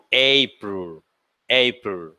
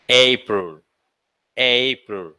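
The two takes are said the same way.

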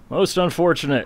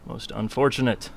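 First: Higher, louder mock lament; mock dramatic. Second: Said in the usual way. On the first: Shown as a demonstration. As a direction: ham up the disappointment. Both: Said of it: "said twice, second louder".

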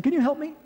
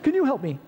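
First: High pleading question to passing drivers; pleading hitchhiker. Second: High pleading ask, falling at the end; pleading hitchhiker. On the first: Hitchhiker begging drivers on the interstate, high plea. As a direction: ask for a ride, voice pitched up. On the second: Hitchhiker asking drivers again, high plea. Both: Retold or imitated. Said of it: "You're saying".

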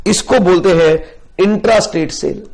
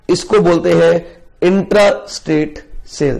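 First: Said in the usual way. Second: intra stressed, whole term said slowly; slow emphatic repeat. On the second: Shown as a demonstration.

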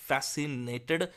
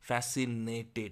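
No difference in how they are said.

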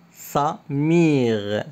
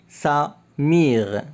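Both takes have the same delivery.

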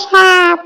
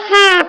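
First: সাপ said "shaap", opening on a sh; standard Bangla form. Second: হাঁস said "haap", opening on an h; Barisal dialect form. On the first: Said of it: "হাঁসের শুদ্ধ ভাষা তো সাপ". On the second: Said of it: "মোরা বরিশালের তো কই". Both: Shown as a demonstration.

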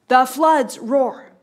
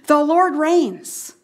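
First: Slow, heavy "the floods roar"; slow, dramatic counterpoint; dramatic turn. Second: Slow, drawn "the Lord reigns"; weighty proclamation; slow declaration. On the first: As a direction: land the contrast ominously. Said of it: "a sudden turn". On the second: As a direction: proclaim it slowly. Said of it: "we saw in verses one and two". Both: Shown as a demonstration.

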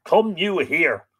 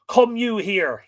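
First: Slow, loud, high replay of the summons; savoured commanding line. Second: Loud, high summons from a chief; commanding Fionn. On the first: Shown as a demonstration. Reader repeats Fionn's summons to the stream, slow and relished. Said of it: "Love it". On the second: Acted. Fionn calls his butler to him, commanding shout. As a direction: call the servant over with command.

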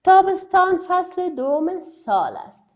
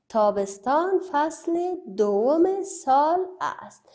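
First: Reading from the book. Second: Slow, spaced reading for the class. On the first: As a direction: clear read-aloud of the book line. (خواندن جمله از کتاب با صدای رسا) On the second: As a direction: read it slowly so pupils follow. (خواندن آهسته و شمرده برای شاگردان) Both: Shown as a demonstration. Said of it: "در کتابتان نوشته است تابستان".

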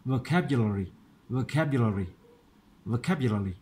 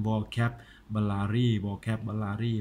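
First: Vocabulary as "vuh-CAP-yuh-luh-ri", unstressed vowels blurred; quick joined-up reading. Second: Vocabulary as "vo-cap-bu-la-ry", each syllable full in Thai style; childhood misreading. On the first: Teacher testing if it sounds right, quick English reading. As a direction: say vocabulary in one run, stress on CAP. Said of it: "ถ้าเป็นลองอ่านเร็วๆดู". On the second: Teacher recalling his childhood reading, mistaken Thai-style pronunciation. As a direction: read vocabulary with every vowel clear and even. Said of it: "ตอนเด็กๆผมอ่าน". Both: Shown as a demonstration.

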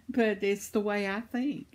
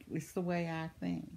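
First: Said in the usual way. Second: Repeated much softer to herself; soft, reflective repeat; quiet echo. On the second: Real, not acted. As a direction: drop the voice and say it again to yourself.

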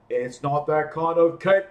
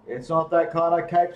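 First: Louder, calling up the tree; yelled. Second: Said in the usual way. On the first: Acted. Bear calling up to Elephant stuck in the tree, yelling. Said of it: "yelled Bear". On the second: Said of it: "said Bear".

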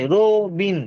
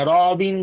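First: রো with a rounded "o", then বিন; রো, বিন split as pronounced; spoken pronunciation. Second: র with an open "aw", then বিন; র, বিন read as it is written; spelling pronunciation. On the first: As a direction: say "ro, bin" for রো, বিন. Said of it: "র বলছি না". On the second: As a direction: say "raw-bin" for র, বিন. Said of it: "র, বিন বলছি না". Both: Shown as a demonstration.

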